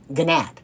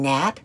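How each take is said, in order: First: It begins with a hard G sound. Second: It begins with a plain N sound.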